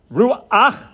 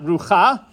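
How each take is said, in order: First: "Ruach" said as roo-AHKH, a short ah glide before the final ch; correct Hebrew pronunciation. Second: "Rucha" said as roo-KHAH, the vowel after the ch; wrong pronunciation shown. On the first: Teacher showing students "Ruach" as roo-AHKH, not roo-KHAH. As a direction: say "Ruach" with the furtive patach sounding before the ch. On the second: Teacher demonstrating the mistaken reading "Rucha" as roo-KHAH. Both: Shown as a demonstration. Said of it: "not Rucha".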